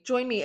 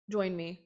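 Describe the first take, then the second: First: The second try, bright and pitched up; eager invitation. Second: Said in the usual way. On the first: Shown as a demonstration. Second, eager invitation to her viewers. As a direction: call them in with excitement.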